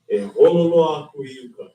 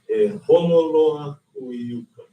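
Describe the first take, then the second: First: It is said at normal speed. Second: It is said more slowly.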